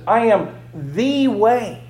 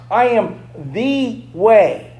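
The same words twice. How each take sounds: First: Slow, weighty I am the way; slow emphasis. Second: "I" punched in a slow I am the way; stress on I. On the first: Preacher to congregation, slow and weighty. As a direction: lean on "way" slowly. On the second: Preacher stressing I to congregation, slow. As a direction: hit "I" and slow down. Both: Shown as a demonstration. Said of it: "I want you to emphasize this".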